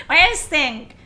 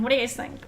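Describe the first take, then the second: First: "What do you guys think?" repeated much louder, falling at the end. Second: Said in the usual way. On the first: Real, not acted. Streamer calls louder to chat for opinions.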